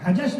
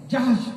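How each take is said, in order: First: "حجش" in two syllables, h before j; mispronounced Hajash. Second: "جحش" with j first, then breathed h before sh; correct Jahsh. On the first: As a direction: say "حجش" wrongly as ha-jash. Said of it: "نہیں پڑھیے گا". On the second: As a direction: say "جحش" as one syllable, jahsh. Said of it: "حجش نہیں پڑھیے گا". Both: Shown as a demonstration.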